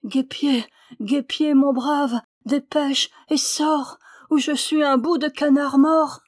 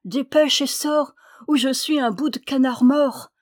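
First: Appel mourant, lent et plus aigu; voix mourante. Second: Crier plus aigu et fort, pressant; appel crié. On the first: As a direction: supplier à bout de forces, lentement. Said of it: "d'une voix mourante". (le canard terrifié appelle le guêpier d'une voix mourante) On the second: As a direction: appeler la rivière à l'aide. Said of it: "s'écria-t-il". (le canard menacé du four appelle la rivière, criant) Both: A narrator's reading.

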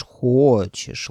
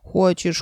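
First: Long, lowered, drawn-out hochesh; drawn-out tender coaxing. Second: Higher, sweet coaxing hochesh; tender coaxing. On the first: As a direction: stretch it out lovingly. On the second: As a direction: coax him gently. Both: A narrator's reading. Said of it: "ласково протянула средняя голова".

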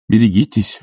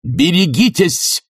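First: Said in the usual way. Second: High, slow shouted warning. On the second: A narrator's reading. Bormenthal shouts a warning after Sharikov. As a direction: shout it after the fleeing man. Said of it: "барменталевский крик".

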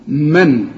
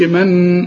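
First: من with a clean sukun nun and no nasal hum; clear un-nasal min. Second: من with a nasal hum on the nun, shown as wrong; wrong nasal min. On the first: Teacher shows student the correct من. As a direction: say من without any nasal hum. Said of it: "لا تغن". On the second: Teacher shows student the wrong nasal من. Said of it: "ما تقولش من". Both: Shown as a demonstration.

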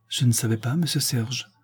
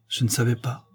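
First: Understated, slightly tearful plea; tearful pleading. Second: Put-on a touch of a guilty child; mildly apologetic, like a child caught out; child making excuses. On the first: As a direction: plead mildly, as if near tears. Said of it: "d'une voix suppliante, pleine de larmes". (légèrement suppliant, au bord des larmes) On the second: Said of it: "d'un enfant pris en faute et qui cherche à s'excuser". (léger ton d'enfant qui s'excuse) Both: A narrator's reading.

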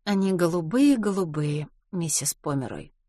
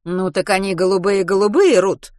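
First: Changed tone. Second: A touch of irritation, pressing the point; slightly irritated. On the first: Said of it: "Рут сменила тон". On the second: Mrs Pomeroy repeats her question to Ruth, mildly irritated. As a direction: repeat it a little impatiently. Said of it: "чуточку раздражённо повторила". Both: A narrator's reading.

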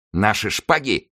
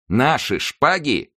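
First: Slightly raised, drawn-out question; incredulous exclamation. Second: High, very slow repeat; indignant exclamation. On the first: D'Artagnan is asked to surrender his sword, incredulous exclamation. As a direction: echo it slowly in mild disbelief. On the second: D'Artagnan recovers and refuses to disarm, indignant exclamation. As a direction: stretch the question out, pitched up. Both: A narrator's reading. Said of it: "воскликнул Д'Артаньян".

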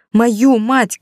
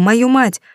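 First: Ударение на мою, выше и резче; выкрикнуть с нажимом на мою; выкрик сына. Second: Мою мать с падением на мать; упор на слово мать, тон вниз; гнев сына. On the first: Сын повторяет громче. (сын кричит, выделяя мою) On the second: Сын повторяет в гневе. (сын с горечью: мою мать) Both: A narrator's reading.

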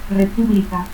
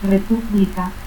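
First: Said in the usual way. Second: República as "repúpblica"; added P. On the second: Shown as a demonstration. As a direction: slip a P in before the B of República. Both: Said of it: "adición del fonema P antes de B".

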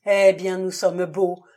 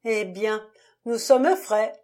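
First: A loud, despairing groan; loud moaning despair; loud groaning lament. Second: Bitter and nearly cheerful, louder on frais; half-mad bitter gaiety; a bitter laugh in the voice; bitter, almost gay. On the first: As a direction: wail it out as he sinks into the chair. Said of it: "gémit Prenant". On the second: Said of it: "sur un ton amer et presque gai". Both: A narrator's reading.

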